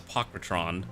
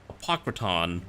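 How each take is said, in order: First: The last syllable has an extra r sound. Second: The last syllable has no extra r sound. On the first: This is how the speaker misreads the name. The speaker calls it wrong. "in my head it sounds better as Apocrytron, which is the incorrect way of saying it" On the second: This is how the name is written. The speaker calls it right. "it says Apocryton"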